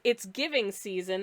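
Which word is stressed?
giving. The stress falls on the word giving. It is the season for giving gifts. "instead of reading it as"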